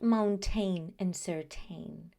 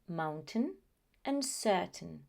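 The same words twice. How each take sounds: First: The ending is said fully, like 'pain'. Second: The ending is said weak and reduced. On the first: The speaker calls it wrong. "They are not" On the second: The speaker calls it right. "No, the pronunciation is"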